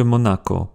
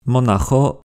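First: "Monaco" with a hard k; K sound. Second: "Monajo" with a kh rasp before the last o; "Monajo" said mo-na-kho; throaty CH. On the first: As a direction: say "Monaco" with a clean k before the final o. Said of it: "c'est pas la même chose". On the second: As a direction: rasp the j of "Monajo" like Spanish jota. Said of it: "ch est resté dans certains mots". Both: Shown as a demonstration.

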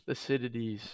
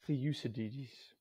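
First: Thucydides as "thuh-SID-ih-dees"; Thucydides newly learned, no "you" sound in it; corrected pronunciation. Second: Thucydides said slowly as "thee-YOU-suh-diddies"; Thucydides misread as "thee-YOU-suh-diddies", drawn out; mispronounced name. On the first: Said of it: "See, you learn". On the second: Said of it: "How do you pronounce that?". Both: Shown as a demonstration.

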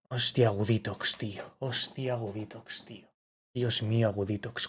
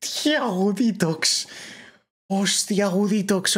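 First: Low, softer, stunned murmur; soft disbelieving repetition; hushed awe. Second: High, squeaky mock Albertito voice; higher, playful imitation of the streamer; imitating Albertito. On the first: Real, not acted. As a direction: savour it quietly to yourself. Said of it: "repeats it low and hushed". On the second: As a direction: parrot his high-pitched gamer voice. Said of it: "Albertito ponía la voz aguda".

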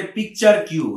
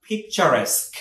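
First: "পিকচার কিউ" ending in a separate "kyu"; common mispronunciation. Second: "পিকচারেস্ক" ending in "-esk"; correct pronunciation. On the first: Teacher quoting learners' mistake, mispronounced "পিকচার কিউ" with a "kyu" ending. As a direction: say "পিকচার কিউ" as picture plus the letter Q. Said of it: "এটার উচ্চারণটা অনেকে বলে". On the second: Teacher correcting learners, careful "পিকচারেস্ক" with an "-esk" ending. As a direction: say "পিকচারেস্ক" as pik-cha-RESK, carefully separated from lead-in. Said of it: "এটা উচ্চারণটা হচ্ছে". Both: Shown as a demonstration.

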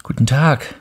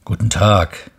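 First: Put-on higher, bright child's greeting; a child saying hello, raised pitch; little prince greeting. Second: A hint of a plain railway worker; switchman greeting. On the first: The little prince greets the switchman, higher child voice. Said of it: "sagte der kleine Prinz". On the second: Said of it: "sagte der Weichensteller".

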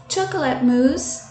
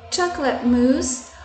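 The two takes are said the same way.

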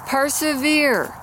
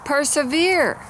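First: Persevere stretched out slowly, high with a falling end; slow emphatic repeat. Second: Persevere said high and firm with a falling end; emphatic. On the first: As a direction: drag out Persevere to drive it home. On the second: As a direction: press the word persevere as the key point. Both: Shown as a demonstration. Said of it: "Point is".

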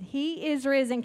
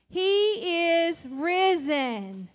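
First: Said in the usual way. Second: Slow, drawn-out and louder "He is risen"; slow proclaiming. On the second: Shown as a demonstration. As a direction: stretch out "He is risen" as a joyful declaration. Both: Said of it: "Can you say that with me?".

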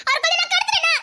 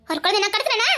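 First: Bitter laugh. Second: Said in the usual way. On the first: Acted.

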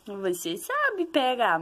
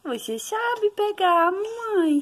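First: Said in the usual way. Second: "Você sabe pegar" up high, slow and sing-song. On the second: Real, not acted. Mother coaxing baby to grab toy.

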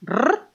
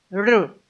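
First: "R" as a strong rolled trill. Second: "r" as a soft, light tongue sound. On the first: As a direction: roll the "R" firmly on the tongue. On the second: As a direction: say "r" gently, without a hard roll. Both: Shown as a demonstration. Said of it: "uno fuerte y uno suave".

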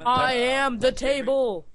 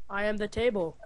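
First: Slow, drawn out I am the table; slow mock table voice. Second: Said in the usual way. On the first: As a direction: announce yourself as furniture, slowly. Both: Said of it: "plays a prop disguise".

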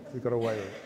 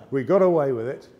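First: Said in the usual way. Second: Triumphant punchline. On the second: Real, not acted.

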